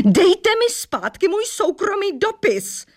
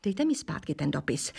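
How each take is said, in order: First: Yelling. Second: Said in the usual way. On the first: A narrator's reading. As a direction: demand the letter back at full voice. (vysoký, hlasitý křik) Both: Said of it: "křičela slečna Mosová".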